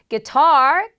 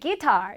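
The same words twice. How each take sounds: First: The stress is on the second syllable. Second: The stress is on the first syllable. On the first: The speaker calls it right. "뒤로 강세가 가고요" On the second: The speaker calls it wrong. "많은 분들이 guitar 이렇게 하시는데"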